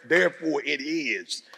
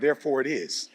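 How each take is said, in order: First: It is said with strong attitude. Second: It is said flatly, without attitude.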